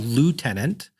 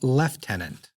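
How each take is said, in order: First: The first syllable sounds like 'loo'. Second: The first syllable sounds like 'lef'. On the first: "what we Americans call lieutenant" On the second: "In British English, they call lieutenant"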